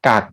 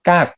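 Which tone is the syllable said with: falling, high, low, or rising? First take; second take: low; falling. First: The syllable is said with a low tone. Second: The syllable is said with a falling tone. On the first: "กักไม่มีรูปวรรณยุกต์" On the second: "กักไม้โท"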